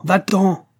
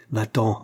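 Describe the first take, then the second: First: High, loud shout of va-t'en!; shouted order. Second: Said in the usual way. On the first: A narrator's reading. Sick master shouts at his servant to leave, loud. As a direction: drive him away with a piercing cry. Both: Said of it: "lui cria le malade".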